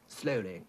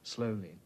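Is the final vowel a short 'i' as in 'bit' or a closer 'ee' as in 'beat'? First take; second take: bit; beat. First: The final vowel is a short, lax 'i' as in 'bit'. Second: The final vowel is a close 'ee' as in 'beat'. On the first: This is the older way of speaking. "So in the earlier one, they're saying things like" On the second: This is the newer way of speaking. "the newer trend is to make it closer, more like the E of beat"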